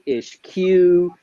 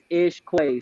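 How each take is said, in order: First: The name ends with a 'kyoo' sound. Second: The name ends with a 'kway' sound. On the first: The speaker calls it wrong. "people want to call me Ish Q" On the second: The speaker calls it right. "it is Ish Quay"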